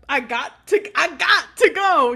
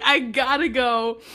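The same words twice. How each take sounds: First: Loud, high mock outburst; hammed-up urgent exit. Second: Slow, loud exit line; deliberate mock exit. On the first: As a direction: burst out as if desperate to leave. Imitating Comac's hasty exit. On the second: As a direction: draw it out firmly, imitating a character leaving. Retelling Comac's exit line.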